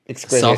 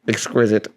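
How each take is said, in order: First: It is said at normal loudness. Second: It is said very quietly.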